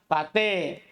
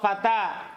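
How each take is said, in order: First: The final vowel is tilted toward e. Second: The final vowel is an open a. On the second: "Contoh fata"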